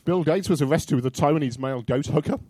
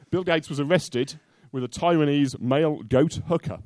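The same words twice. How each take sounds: First: The sentence is said quickly. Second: The sentence is said slowly. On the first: The speaker calls it wrong. "I think you said that too quickly" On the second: The speaker calls it right. "Say it slowly and mean it"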